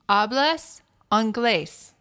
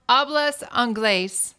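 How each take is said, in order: First: Slow, careful American-accented Spanish; halting tourist Spanish; bad Spanish accent. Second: Slow, deliberate gringo Spanish; mild tourist Spanish. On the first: Shown as a demonstration. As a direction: spell out each syllable like a tourist. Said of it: "with a very bad accent". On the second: Retold or imitated. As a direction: tourist asking the bartender in Spanish. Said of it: "I have a horrible accent".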